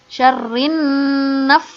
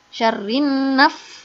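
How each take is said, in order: The two takes are said the same way.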